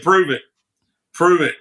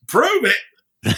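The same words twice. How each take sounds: First: Said in the usual way. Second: High, incredulous echo; mock disbelief. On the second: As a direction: toss it back high as if it's absurd. Rob echoing in disbelief.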